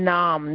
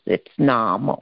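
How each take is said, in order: First: The final vowel is dropped, ending on m. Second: The final vowel is fully pronounced after m. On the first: The speaker calls it wrong. "Like in Hindi, naam, they say, right? But this is not the way it is" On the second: The speaker calls it right. "Fully you have to say nama"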